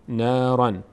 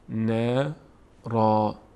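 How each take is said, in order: First: The word ends with an n sound. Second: The word ends with a long a sound. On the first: The reading continues without stopping. "در هنگام وصل کردن نارن خونده میشه" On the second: The reader stops at this word. "میگیم نارا نارا. اینا صدای آ میگیره"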